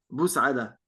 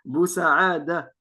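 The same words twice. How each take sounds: First: The vowel after the 's' is kept short. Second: The vowel after the 's' is held long. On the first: "les Algériens, ils disent tous euh, ... ils prononcent pas le alif" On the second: "c'est une ville en Algérie"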